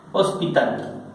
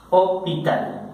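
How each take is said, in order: First: Said in the usual way. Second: "hospital" sin pronunciar la S, o-pi-tal; S muda. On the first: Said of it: "la palabra". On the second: Shown as a demonstration. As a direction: say "hospital" the French way, dropping the S. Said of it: "se anula esta S". ("hospital" con la ese muda, o-pi-tal)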